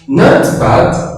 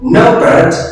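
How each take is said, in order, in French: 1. C'est dit avec un accent britannique. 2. C'est dit avec un accent américain. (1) "c'est la prononciation britannique" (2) "c'est la prononciation américaine"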